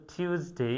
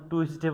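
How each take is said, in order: First: টিউসডে as "tyus-day", Y glide after T; correct Tuesday. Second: টুইসডে as "tu-is-de", W glide after T; wrong Tuesday. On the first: Teacher giving the correct form, "tyoos" sound. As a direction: say টিউসডে with "tyoos" for the first part. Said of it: "বলতে হবে টিউসডে". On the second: Teacher showing the mistake, "twis" sound. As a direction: say টুইসডে with "twis" for the first part. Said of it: "টুইসডে বলা যাবে না". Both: Shown as a demonstration.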